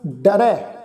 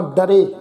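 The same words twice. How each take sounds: First: ਡਰੈ with the dulavan vowel, ai sound; correct ਡਰੈ. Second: ਡਰੇ said with a single lanv, the wrong way. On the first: Teacher shows the congregation the right way to say it. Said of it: "ਇਸ ਢੰਗ ਨਾਲ ਅਸੀਂ ਪਾਠ ਉਚਾਰਨ ਕਰਾਂਗੇ". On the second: Teacher shows the congregation the wrong way to say it. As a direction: say ਡਰੇ with a plain e vowel. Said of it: "ਇਸ ਢੰਗ ਨਾਲ ਉਚਾਰਨ ਨਹੀਂ ਕਰਨਾ". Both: Shown as a demonstration.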